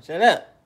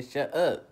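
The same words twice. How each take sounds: First: A sudden loud snapped order; loud shut up. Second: Said in the usual way. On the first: Retold or imitated. Telling people to stop talking, loudly. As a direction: bark it out to silence them. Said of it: "That's what I say, "God damn". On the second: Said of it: "That's what I say".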